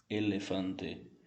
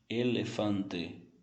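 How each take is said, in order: The two takes are said the same way.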